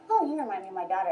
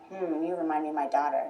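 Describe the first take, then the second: First: It is said in an innocent, wholesome tone. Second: It is said in a creepy, sinister tone.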